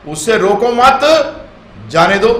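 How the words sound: The pause comes after 'mat', meaning let him go.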